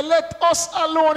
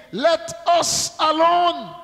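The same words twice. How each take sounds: First: "us" leaned on to show many spirits; stress on US. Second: Slow, drawn-out plea, "Let us alone" stretched; slow cry of the demon. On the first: Shown as a demonstration. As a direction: hit the word "us" in "Let us alone". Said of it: "it's more than one in there". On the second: A narrator's reading. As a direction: draw out "Let us alone" like a lightly voiced crying demon. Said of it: "And he cried out".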